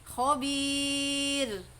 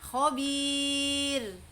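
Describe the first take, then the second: The two takes are said the same way.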